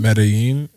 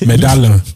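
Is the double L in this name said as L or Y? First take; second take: Y; L. First: The middle consonant is pronounced like a Y. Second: The middle consonant is pronounced like an L. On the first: The speaker calls it right. "look at you not pronouncing the L as an L. It's a Y" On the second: The speaker calls it wrong. "uncouth [name] would have said medallion"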